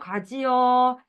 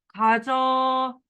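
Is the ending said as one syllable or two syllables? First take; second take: two syllables; one syllable. First: The ending is said as two separate syllables. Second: The ending is contracted into one syllable. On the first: The speaker calls it wrong. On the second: The speaker calls it right.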